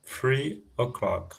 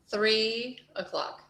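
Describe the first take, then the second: First: Three said as free, with an f; wrong th. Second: Three with the tongue between the teeth, slow; correcting f to th. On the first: Real, not acted. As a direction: fricative f instead of th in Three. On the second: Shown as a demonstration. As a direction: model Three with a clear th. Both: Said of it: "It's not an F".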